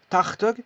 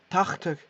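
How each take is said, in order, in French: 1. La consonne du milieu est un son de gorge rocailleux, proche d'un R. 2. La consonne du milieu est un son de gorge rocailleux, proche d'un R.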